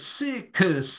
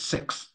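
First: The word is stretched into three syllables. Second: The word is said as one syllable. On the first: The speaker calls it wrong. "a lot of the kids would pronounce it with three syllables" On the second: The speaker calls it right.

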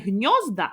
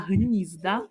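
First: The stress falls as in the Russian word. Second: The stress falls as in the Ukrainian word. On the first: The speaker calls it wrong. "не гнізда" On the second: The speaker calls it right. "а гнізда"

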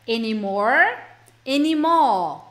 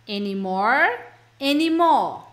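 No difference in how they are said.

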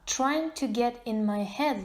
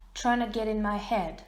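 First: Both words "trying to" are said in full. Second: "Trying to" is run together fast as "tryna". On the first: "в своєму тексті я написала наступну фразу ось так" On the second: "Tryna – це скорочена фраза trying to"

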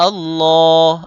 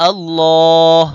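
Both takes have the same delivery.

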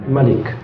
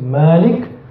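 First: The first vowel is kept short. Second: The first vowel is drawn out long. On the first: "you can put the normal Fatihah there, becomes Malik" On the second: "you can put this, a mad there, becomes Malik"

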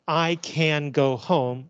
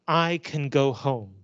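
First: The word 'can' is stressed and said in full. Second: The word 'can' is unstressed and reduced. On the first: The speaker calls it wrong. "So we don't say" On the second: The speaker calls it right. "We say"

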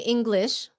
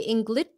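First: The word is pronounced carefully and clearly. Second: The word is pronounced loosely and carelessly. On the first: The speaker is focusing on pronunciation. "when you concentrate, you say English" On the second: The speaker is just talking casually. "But when you talk, you say English"

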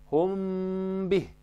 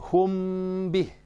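Both takes have the same delivery.

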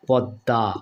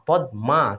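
First: The m sound merges into the d. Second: The m sound is pronounced after the d. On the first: "কিন্তু আমরা কি উচ্চারণ করি" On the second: "পদ মা হওয়ার কথা তাই না"

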